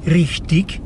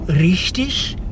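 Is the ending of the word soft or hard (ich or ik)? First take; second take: hard; soft. First: The word ends in a hard ik sound. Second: The word ends in a soft ich sound. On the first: The speaker calls it wrong. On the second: The speaker calls it right.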